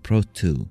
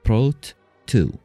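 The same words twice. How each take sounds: First: The two t sounds merge into one. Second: Each t sound is said separately. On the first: "ما تصير prot two" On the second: "الاثنين التي عندنا prot وtwo تنفصل"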